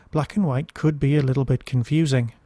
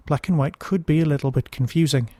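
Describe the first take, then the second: No difference in how they are said.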